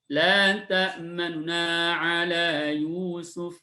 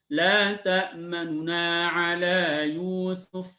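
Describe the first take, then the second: Both takes have the same delivery.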